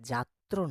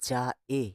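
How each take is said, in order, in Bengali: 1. শব্দটি ত্র যুক্তবর্ণ দিয়ে শেষ হয়। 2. শব্দটি স্বরধ্বনি দিয়ে শেষ হয়, র নেই। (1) "ওটা যাত্র নয়" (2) "ওইটা তৈর ফলা নয়"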